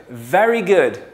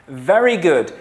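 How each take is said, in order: Both takes have the same delivery.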